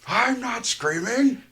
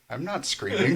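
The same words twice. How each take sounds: First: It is shouted very loudly. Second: It is said at normal, quiet volume.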